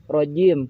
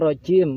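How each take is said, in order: First: The j sound is clean, with no escaping air. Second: The j sound has some air escaping. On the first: The speaker calls it right. "Karena dia bersih" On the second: The speaker calls it wrong. "bukan rojim"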